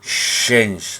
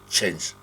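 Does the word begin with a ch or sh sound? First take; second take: sh; ch. First: It begins with a soft sh sound. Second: It begins with a sharp ch sound. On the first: The speaker calls it wrong. "No es change, no" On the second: The speaker calls it right. "solo change"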